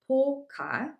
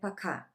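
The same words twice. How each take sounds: First: The first vowel sounds like a full 'o'. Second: The first vowel sounds like an 'a'. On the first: "why I have written it like пока" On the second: "it's pronounced like пока, because all the Russian O's are pronounced like us if they are un unstressed"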